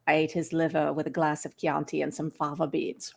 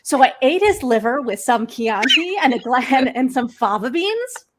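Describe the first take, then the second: First: Low, soft, unchanging pitch; softer creepy monotone quote; low monotone Hopkins. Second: Higher and louder with bouncy pitch; cheerful contrast to the monotone; lively upbeat read. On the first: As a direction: hold it low and level like a chilling villain. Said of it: "Very low monotone". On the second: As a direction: sing it out brightly, full of melody. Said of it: "Can you imagine if he had said it". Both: Shown as a demonstration.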